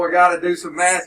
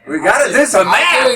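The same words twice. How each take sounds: First: It is said in a glum, reluctant tone. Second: It is said in a cheerful, smiling tone. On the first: Doing math is a chore. The speaker calls it wrong. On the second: Doing math is something to enjoy. The speaker calls it right.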